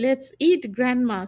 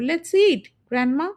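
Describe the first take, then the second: First: It runs straight on with no pause before grandma. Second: There is a short pause before grandma. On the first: The speaker proposes eating the grandmother. The speaker calls it wrong. "যদি কমা না দিই তাহলে কি হয়ে যাবে" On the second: The speaker calls the grandmother to come and eat. The speaker calls it right. "So আমরা এভাবে পড়বো"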